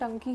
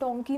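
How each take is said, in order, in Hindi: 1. यह क्षेत्रीय उच्चारण में बोला गया है। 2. यह मानक उच्चारण में बोला गया है। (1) "हम लोगों का थोड़ा लिंगो होता है, डंकी ही बोलते हैं" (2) "डोंकी नहीं बोलते हैं"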